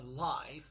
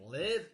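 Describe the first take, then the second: First: The vowel is long, as in 'five'. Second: The vowel is short, as in 'give'. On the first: Something happens in real time before an audience. "Long I like the number five" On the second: Someone resides somewhere. "short like the word give"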